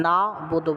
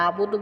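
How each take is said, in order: First: না বুদু with the না kept clear and separate; correct pronunciation. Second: আবুদু run together as one word, the wrong way; wrong pronunciation. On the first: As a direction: say না বুদু cleanly, the right way. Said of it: "না বুদু বলতে হবে". (সঠিক উচ্চারণে না বুদু) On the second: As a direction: slur it into আবুদু, the mistake to avoid. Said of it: "কখনো আবুদু বলা যাবে না". (ভুল উচ্চারণে আবুদু) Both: Shown as a demonstration.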